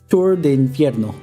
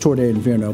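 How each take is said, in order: First: The last word is said as 'infierno'. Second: The last word is said as 'inferno'. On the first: "but I prefer" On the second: "that is the correct way of saying it"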